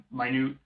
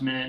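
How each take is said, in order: First: Minute said my-NOOT, like tiny; alternative pronunciation. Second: Minute said MIN-it, like the time unit; pronounced as intended. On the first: Cohost showing the rejected brand pronunciation, Minute as my-NOOT. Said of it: "not Minute". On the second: Cohost clarifying a brand name, Minute pronounced MIN-it. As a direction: say Minute with a short first vowel, MIN-it. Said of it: "I'm pretty sure it's pronounced". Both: Shown as a demonstration.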